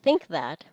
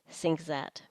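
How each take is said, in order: First: Both words begin with th sounds. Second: Both words begin with s and z sounds.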